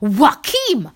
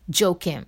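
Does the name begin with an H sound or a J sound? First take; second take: H sound; J sound. First: The name begins with an H sound. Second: The name begins with a J sound. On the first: The speaker calls it right. "someone corrected me saying his Joaquin" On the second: The speaker calls it wrong. "A normal person like me, like someone like me, Joaquin. That's how I said his name first"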